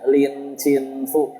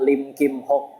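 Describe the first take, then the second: First: The name is read with Mandarin sounds. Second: The name is read with Hokkien sounds. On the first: "Itu kalau pakai logat Mandarin ya" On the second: "Kalau pakai logat Hokkien"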